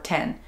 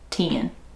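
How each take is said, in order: First: The vowel is a clear, plain 'e' sound. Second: The vowel is drawn out with a country twang. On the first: "if I'm saying the word by itself, I say pen or ten" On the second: "it comes out more country"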